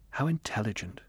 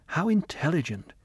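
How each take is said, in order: First: Softer, inward musing; inner thought. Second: Higher, awed exclamation; admiring exclamation. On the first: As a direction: think it to yourself, hushed. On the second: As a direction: marvel at him aloud. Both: Acted. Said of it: "he thought".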